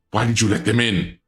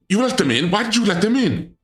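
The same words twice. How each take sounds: First: Said in the usual way. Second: High, shrill-edged why-did-you; demanding answers in high alarm; indignant squeal at the intruders; outraged disbelief. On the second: Real, not acted. Outraged at intruders in her room.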